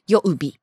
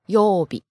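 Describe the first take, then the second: First: The first vowel is short. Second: The first vowel is long. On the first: The speaker calls it wrong. "It's not 曜日" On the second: The speaker calls it right. "Right, it's a long O"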